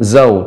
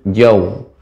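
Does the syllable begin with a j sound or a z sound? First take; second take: z sound; j sound. First: The syllable begins with a z sound. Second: The syllable begins with a j sound. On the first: The speaker calls it wrong. "jangan zau" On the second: The speaker calls it right. "tapi jauh"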